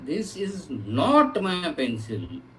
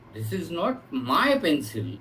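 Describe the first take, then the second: First: The word 'not' carries the emphasis. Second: The word 'my' carries the emphasis. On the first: It is flatly denied that the pencil is the speaker's. "ये pencil मेरी नहीं है" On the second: The pencil may belong to someone else. "किसी अल- दूसरे की हो सकती है"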